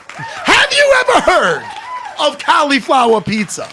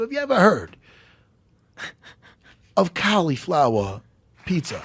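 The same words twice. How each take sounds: First: High, drawn-out comic scream. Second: Said in the usual way. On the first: Retold or imitated. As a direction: scream it as if astounded, stretched out. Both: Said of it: "Please stop screaming at me".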